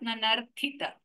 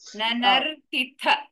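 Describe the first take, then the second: First: The first t sound is aspirated. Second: The last t sound is aspirated. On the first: The speaker calls it wrong. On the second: The speaker calls it right. "tha is a Mahaprana"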